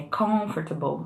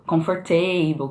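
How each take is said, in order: First: "comfortable" as "COMF-ter-bol", first syllable stressed; correct stress. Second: "comfortable" slowly as "com-for-TAY-bol"; wrong stress. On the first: Teacher correcting the mistake, "comfortable" stressed on COM. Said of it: "que é comfortable". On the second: Teacher showing the mistake, "comfortable" stressed on TAY. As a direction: stretch "comfortable", stressing a false TAY syllable. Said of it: "ou, por exemplo". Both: Shown as a demonstration.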